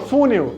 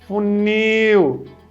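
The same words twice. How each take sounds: First: The stress is on the first syllable. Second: The stress is on the last syllable. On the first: The speaker calls it wrong. "É fu? Não, eu não falo funil" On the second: The speaker calls it right. "A última sílaba aqui é mais forte"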